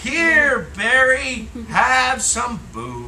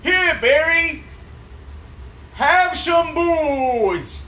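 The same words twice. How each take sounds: First: Higher, louder, slow read-back. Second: Slow, drawn-out dictation; dictating. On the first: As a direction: read it back slowly and carefully. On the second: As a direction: spell it out slowly for the writer. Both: Shown as a demonstration. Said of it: "Read that back to me".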